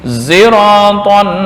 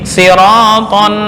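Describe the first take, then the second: First: The word begins with a z-like sound. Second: The word begins with a plain s sound. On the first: "membaca ismam di sod dengan suara za" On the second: "sin biasa"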